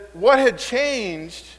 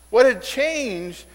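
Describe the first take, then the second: No difference in how they are said.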